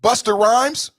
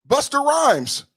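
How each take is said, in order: First: Said in the usual way. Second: Slow, sing-song Jamaican accent. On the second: Shown as a demonstration. Showing viewers the Jamaican accent he calls Irish, slow Jamaican accent. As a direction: stretch the name out in a Jamaican accent. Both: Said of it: "That accent is an Irish accent".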